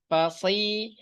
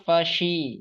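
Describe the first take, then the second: First: The consonant sounds like a plain s. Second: The consonant sounds like sh. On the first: The speaker calls it right. "sekarang sudah pas" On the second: The speaker calls it wrong. "masih terasanya fashi gitu"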